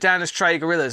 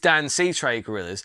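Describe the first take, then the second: First: The first part ends with an 'iss' sound. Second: The first part ends with a 'see' sound. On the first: The speaker calls it wrong. "I don't say their name right either" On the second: The speaker calls it right. "I know that it's"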